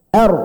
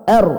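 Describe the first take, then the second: The two takes are said the same way.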